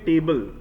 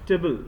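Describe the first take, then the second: First: It is pronounced fully like the word 'table'. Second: It is reduced and said softly. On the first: The speaker calls it wrong. "Most of the times हम इसे बोलते हैं टेबल" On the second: The speaker calls it right. "लेकिन ये टेबल नहीं होता"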